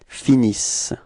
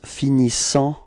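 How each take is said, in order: First: The ending is silent, ending on an s sound. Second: The ending is said with a nasal vowel. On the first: The speaker calls it right. "you don't pronounce them, so it's finis" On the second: The speaker calls it wrong. "a quite common mistake for this uh, uh, third person of the plural that the, the students pronounce finissant"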